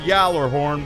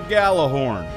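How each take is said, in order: First: The name begins with a Y sound. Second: The name begins with a hard G sound. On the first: The speaker calls it wrong. "it's pronounced Yallerhorn, but it's not" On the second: The speaker calls it right. "This is a Galahorn"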